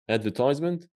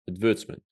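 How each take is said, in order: First: It is said in an American accent. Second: It is said in a British accent. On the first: "One of them is American" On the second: "One of them is British"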